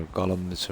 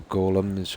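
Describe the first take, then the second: First: "golems" said with a short open O, GOLL-ems. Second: "golems" said with a long O, GOH-lems. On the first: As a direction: say "golems" as GAH-lems, like "gollums". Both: Real, not acted. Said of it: "whatever they're called".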